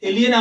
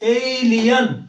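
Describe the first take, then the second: First: The last syllable sounds like 'yen'. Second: The last syllable sounds like 'yan'. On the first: The speaker calls it wrong. "এলিয়েন আমরা বলি" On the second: The speaker calls it right. "কিন্তু সঠিক উচ্চারণ হচ্ছে ইংলিশে এলিয়ান।"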